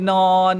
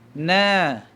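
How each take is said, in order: First: The vowel is a rounded 'o'. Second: The vowel is an open, thin 'a'. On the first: The speaker calls it wrong. "jangan duk no" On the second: The speaker calls it right. "nipis, buka mulut boleh masuk satu jari"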